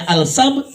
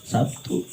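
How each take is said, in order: First: "Al-Sab" said as Arabic, with the article; Arabic pronunciation. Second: "Sabtu" said locally, softly, ending in -tu; Indonesian pronunciation. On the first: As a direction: say "Al-Sab" as Arabs do. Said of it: "Orang sono ngomongnya". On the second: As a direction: drop low on the local "Sabtu". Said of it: "kita ngomongnya nggak bisa bilangnya". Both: Shown as a demonstration.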